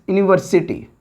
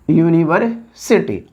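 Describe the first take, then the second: First: Said in the usual way. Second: "university" drawn out slowly, in parts; slow dictation. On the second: Shown as a demonstration. Teacher writing the example word for students, slow dictation.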